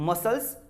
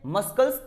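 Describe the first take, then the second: First: No k sound is heard after the s. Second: A k sound is heard after the s. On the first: The speaker calls it right. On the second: The speaker calls it wrong.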